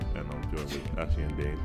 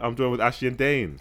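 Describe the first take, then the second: First: It is said in a flat, plain way. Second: It is said in a grand, showy way.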